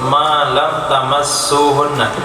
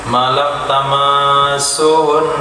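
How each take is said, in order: First: The verb starts with ta and a short vowel. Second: The verb starts with tu and a long vowel. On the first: This is the majority reading. "qiraat jumhur" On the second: This is the reading of Hamzah and Kisai. "pakai alif dan domata"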